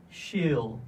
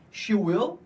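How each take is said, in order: First: "she'll" as one syllable; single falling "she'll", stated as the answer; contracted form. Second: "She will" as two separate words; careful two-word "She will"; full form. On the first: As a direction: blend she and will into "she'll". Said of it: "vamos contrair nessa frase". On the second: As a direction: say "She will" uncontracted, raised before its short form. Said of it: "Como é que vai ficar aqui?". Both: Shown as a demonstration.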